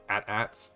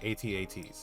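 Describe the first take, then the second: First: It is said as two short words. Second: It is spelled out letter by letter. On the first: The speaker calls it wrong. "as some people say" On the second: The speaker calls it right. "say the code name"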